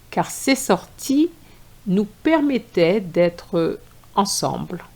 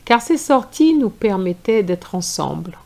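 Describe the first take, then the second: First: It is read at a slower pace. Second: It is read at a faster pace.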